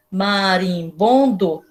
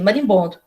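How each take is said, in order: First: Very slow, "Marimbondo" split into its syllables; "Marimbondo" stretched slowly, each syllable separate. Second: Said in the usual way. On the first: Shown as a demonstration. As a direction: sound out "Marimbondo" one mouth opening at a time. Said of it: "Quantas vezes a gente abre a boca pra falar marimbondo?". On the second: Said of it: "Eu assim, ué, o que que tá escrito aqui?".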